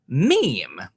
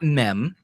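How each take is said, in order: First: The vowel is long, like 'ee'. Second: The vowel is short, like 'e' in 'them'. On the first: The speaker calls it right. "is how you pronounce the word" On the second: The speaker calls it wrong. "It's it's not mem"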